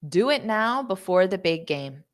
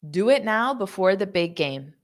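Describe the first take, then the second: Both takes have the same delivery.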